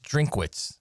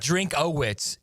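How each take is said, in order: First: The name is said with two syllables. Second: The name is said with three syllables. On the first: The speaker calls it right. "It's Drinkwitz" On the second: The speaker calls it wrong. "It's not Drinkowitz"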